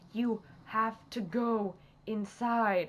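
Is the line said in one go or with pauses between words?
one go. It is said in one go without pauses. The speaker calls it wrong. "I said that wrong"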